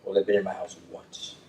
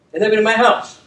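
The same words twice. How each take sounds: First: Said in the usual way. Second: Never said high and louder; emphatic restatement. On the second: Real, not acted. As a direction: hammer home that they've never been in my house.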